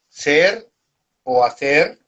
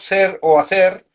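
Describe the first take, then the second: First: It is said at a slower pace. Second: It is said at a faster pace.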